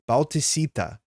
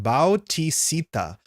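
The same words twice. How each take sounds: First: Bautisita run together as bow-ti-SEE-ta; joined syllables. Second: Bautisita slowly, as bow-tee-see-ta; all syllables. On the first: Streamer repeating a name, smoothly joined Bautisita. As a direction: say Bautisita as one smooth word. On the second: Streamer sounding out a name, slow segmented Bautisita. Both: Shown as a demonstration. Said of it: "it's a bunch of syllables here".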